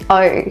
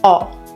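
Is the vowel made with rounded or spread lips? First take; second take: spread; rounded. First: The vowel is made with wide, flat lips. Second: The vowel is made with narrow, rounded lips. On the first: "my mouth is like flat and wide" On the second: "it's getting very narrow and round"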